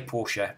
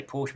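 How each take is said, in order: First: Porsche with two syllables, POR-shuh; correct Porsche. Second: Porsche clipped to one syllable, PORSH; English Porsche. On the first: Explaining the proper German way to say Porsche. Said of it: "we're supposed to say Porsche". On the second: Showing how English people usually say Porsche. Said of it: "We say Porsche". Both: Shown as a demonstration.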